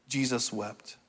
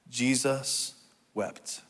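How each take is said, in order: First: Softly, the two words run together; hushed repeat. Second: Slow, soft, a pause between the words; slow group recitation. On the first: Preacher repeating the shortest verse to congregation, hushed. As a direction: let the verse drop quietly. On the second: Preacher leading congregation in a two-word verse, slow and soft. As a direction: say it slowly for others to join. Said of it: "say it with me". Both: Real, not acted.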